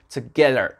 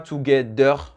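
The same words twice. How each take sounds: First: The middle consonant is a TH sound. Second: The middle consonant is a D sound. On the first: The speaker calls it right. "The, the" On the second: The speaker calls it wrong. "c'est pas together, c'est pas un D"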